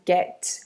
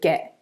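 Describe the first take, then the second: First: The final T sound is clearly pronounced. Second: The final T sound is dropped. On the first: "not as get with a T at the end" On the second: "the T will disappear from the ends of words"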